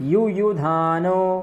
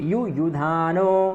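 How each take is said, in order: Both takes have the same delivery.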